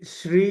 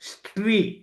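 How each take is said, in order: First: The word begins with s followed by r. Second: The word begins with s, t, then r. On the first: The speaker calls it right. "శ్రీ అని పలకటానికి" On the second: The speaker calls it wrong. "స్ట్రీ ఎస్టిఆర్ఈఈ ఆ pronunciation చేస్తూ ఉంటారు"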